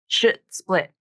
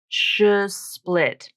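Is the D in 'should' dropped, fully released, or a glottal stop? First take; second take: glottal stop; dropped. First: A glottal stop replaces the D sound. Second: The D sound is left out entirely. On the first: "substitute a glottal stop instead of a D" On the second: "drop the D sound completely"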